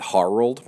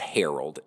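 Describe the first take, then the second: First: The first syllable sounds like 'har'. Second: The name is said in its usual way. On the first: It is the show's playful version of the name. "Not like hair, but har old" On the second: It is the normal way to say the name. "is how you would um, actually pronounce the word Harold"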